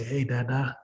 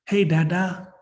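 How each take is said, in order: First: Low, soft hello to a parent; hushed, tender rehearsed greeting; greeting dad. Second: A hint of a little child, slightly raised; imitated child's hello, rising at the end; toddler's greeting. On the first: Pretend. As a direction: say it gently and low, as if face to face. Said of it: "when I see my dad in person, I'll say". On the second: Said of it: "this little human being that's nineteen months old".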